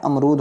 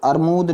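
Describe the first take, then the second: First: अमरूद said "am-rood", m before r; correct pronunciation. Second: अरमूद said "ar-mood", r before m; rustic mispronunciation. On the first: Teacher corrects the village form, अमरूद as "am-rood". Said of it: "होता क्या है?". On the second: Teacher shows children's village error, अरमूद as "ar-mood". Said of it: "ग्रामीण भाषा में कह देते हैं". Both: Shown as a demonstration.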